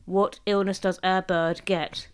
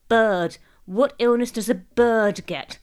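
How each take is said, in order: First: Put-on slow, word-by-word child reader; laborious reading. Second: Put-on loud, slow, deliberate child reader; confident reading aloud. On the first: William reading his joke once more, laboriously. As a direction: read it out laboriously, evenly. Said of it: "again, laboriously". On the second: Jessica reading the joke for the family, confident. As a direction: read it out firmly for everyone. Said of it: "much more confident in her fledgling reading career". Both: A narrator's reading.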